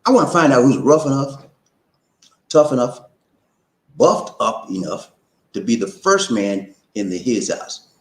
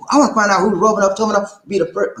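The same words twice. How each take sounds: First: Slow and spelled out; slow it down so everyone gets it. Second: Fast, high hype call. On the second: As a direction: rattle it off quick and high. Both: Shown as a demonstration. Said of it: "I have to say it slow".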